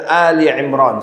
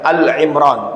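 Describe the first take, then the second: First: The first word is 'Ali' with a final vowel. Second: The first word is a short 'Al'. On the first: The speaker calls it right. "Ali Imran dibaca dengan Ali Imran" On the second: The speaker calls it wrong. "nggak boleh mengatakan Al Imran"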